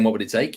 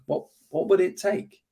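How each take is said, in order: First: It sounds certain and aggressive. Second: It sounds curious and open.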